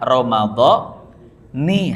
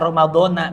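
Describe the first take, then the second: First: The word ends with an 'i' vowel. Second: The word ends with an 'a' vowel. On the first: "yang tepat adalah Ramadhani" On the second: "ada orang yang baca Ramadhana, biarin, gak apa-apa"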